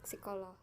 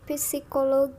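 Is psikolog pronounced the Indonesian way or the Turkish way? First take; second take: Indonesian; Turkish. First: The word is said with Indonesian pronunciation. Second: The word is said with Turkish pronunciation. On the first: "kalau kita mungkin bacanya di Indonesia" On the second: "emang bacanya kalau nggak salah agak begitu sih ya kalau di Turki"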